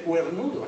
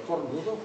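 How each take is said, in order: First: "cuernudo" with ue in place of o; wrong diphthongised form. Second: Said in the usual way. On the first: Shown as a demonstration. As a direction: say the non-word "cuernudo", cuer-NU-do. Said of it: "no se dice cuernudo". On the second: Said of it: "es cornudo".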